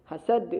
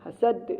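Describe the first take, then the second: Both takes have the same delivery.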